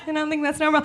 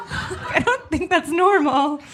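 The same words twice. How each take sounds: First: Said in the usual way. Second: Laughing. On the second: Real, not acted. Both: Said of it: "repeated line".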